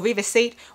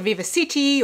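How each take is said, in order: First: The name ends with a one-syllable 'seat' sound. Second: The name ends with a two-syllable 'city' sound. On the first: "it came out with a pronunciation like seat" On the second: "some people call it Viva City"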